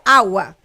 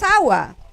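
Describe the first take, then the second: First: The stress is on the first syllable. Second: The stress is on the second syllable. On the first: This is how the basic stress rule predicts it. The speaker calls it wrong. "Debería ser, debería ser agua" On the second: This is how the word is actually pronounced. The speaker calls it right. "pero no es agua, no obedece"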